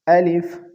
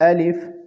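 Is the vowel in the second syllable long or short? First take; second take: short; short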